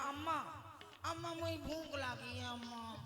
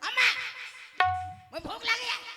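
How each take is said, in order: First: It is said lovingly and sweetly. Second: It is said rudely and demandingly.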